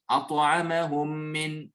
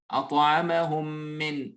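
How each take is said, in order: First: The two m sounds merge into one doubled m. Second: The two m sounds merge into one doubled m.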